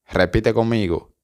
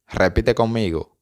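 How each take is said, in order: Both takes have the same delivery.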